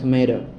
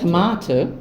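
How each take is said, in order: First: It is said with an American accent. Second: It is said with a British accent. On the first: "American বা টমেটো" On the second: "এটা হচ্ছে British"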